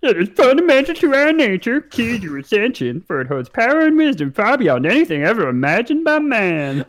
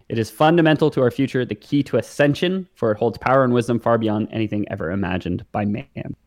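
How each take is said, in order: First: It is said in a funny voice. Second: It is said in a normal voice.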